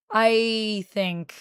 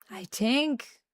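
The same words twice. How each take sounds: First: "I think" with a clear th; slipping Jamaican accent. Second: "think" turned into "tink", softer; Jamaican-style th. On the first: Checking a failing accent aloud, "I think" with a th sound. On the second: Retrying the failing accent, "think" pronounced "tink". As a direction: say "think" with a hard t for th. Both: Shown as a demonstration. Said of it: "trying and slightly failing to do, I think".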